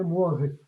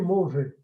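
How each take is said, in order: First: The vowel after 'm' is a 'uo' glide. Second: The vowel after 'm' is a plain 'o'. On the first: This is the correct standard Italian form. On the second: This is the vulgar Florentine form.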